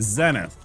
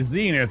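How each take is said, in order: First: It is said with a British pronunciation. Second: It is said with an American pronunciation. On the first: "over there in jolly old England, they'd probably say zenith" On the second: "We say zenith here in America"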